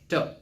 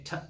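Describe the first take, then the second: First: The T is released weakly, without a burst. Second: The T is released with a strong burst. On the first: The speaker calls it wrong. "Instead of T" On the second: The speaker calls it right. "you should say T"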